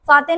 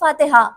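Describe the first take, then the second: First: The word ends early, without its final syllable. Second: The word is said in full, with its final syllable. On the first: The speaker calls it wrong. "फाते नहीं" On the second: The speaker calls it right.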